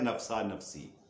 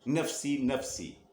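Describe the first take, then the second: First: The first word ends in an 'a' vowel. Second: The first word ends in an 'ee' vowel. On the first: The speaker calls it wrong. "आमतौर पर लोग बोलते हैं नफसा नफसी। ऐसा कहना गलत है" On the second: The speaker calls it right. "नफसी नफसी ऐसे बोला करें"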